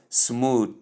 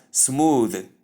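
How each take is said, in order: First: "smooth" slowly with a detached voiceless th; wrong pronunciation. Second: "smooth" drawn out with a voiced th ending; correct pronunciation. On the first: Teacher showing most people's error, "smooth" with separated voiceless th. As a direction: say "smooth" as smoo-th, ending like "tooth". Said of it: "as most people call it". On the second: Teacher giving the right form, "smooth" slowly with voiced th. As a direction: say "smooth" slowly, buzzing the final th. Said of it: "the word is pronounced as". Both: Shown as a demonstration.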